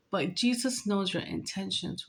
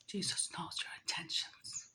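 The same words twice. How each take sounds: First: Said in the usual way. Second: Very soft, secretive whisper; barely audible, whispered aside. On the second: Real, not acted. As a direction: drop to a hushed whisper for the knowing repeat. Repeats the line in a whisper.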